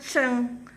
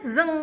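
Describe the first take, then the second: First: The word begins with a ch sound. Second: The word begins with a z sound. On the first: It is read the way Chinese speakers read it. "bukannya ceng" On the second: It is read the way it is spelled. "Di Indonesia orang bacanya pasti tulisnya zeng bacanya"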